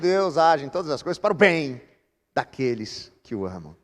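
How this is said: The stress falls on the word bem. The good outcome is what matters most. The speaker calls it wrong. "é mais gostoso e mais fácil a gente colocar a ênfase desse versículo no bem"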